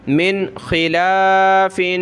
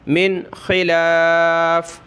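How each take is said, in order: First: The phrase ends with a final 'in' sound. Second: The phrase ends on the bare consonant 'f'. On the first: The reading continues without stopping. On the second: The reader stops at this word.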